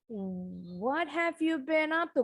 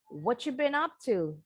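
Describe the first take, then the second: First: It is said slowly, every word full. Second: It is said fast, words run together.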